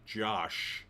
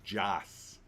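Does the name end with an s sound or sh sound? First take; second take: sh; s. First: The name ends with an sh sound. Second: The name ends with an s sound. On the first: The speaker calls it wrong. "I always want to say Josh, but it's not Josh" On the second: The speaker calls it right. "It's Joss"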